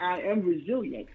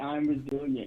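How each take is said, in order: First: It is said forcefully, with strong emphasis. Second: It is said plainly, without extra emphasis. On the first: "That makes you feel so much more powerful" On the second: "You can say"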